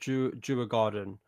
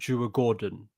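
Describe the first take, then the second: First: The second part sounds like garden. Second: The second part sounds like gordon. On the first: The speaker's original way of saying it. "originally I I said" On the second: The way the broadcast commentators said it. "on T N T commentary they were very they stressed how it was like"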